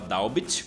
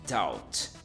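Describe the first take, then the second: First: The b is pronounced. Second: The b is silent. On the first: The speaker calls it wrong. "não se fala doubt, por mais que tenha um B ali" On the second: The speaker calls it right. "a pronúncia é essa"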